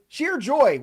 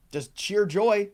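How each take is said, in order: First: Gleeful repeat. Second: Said in the usual way. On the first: Real, not acted. Host repeats with gusto.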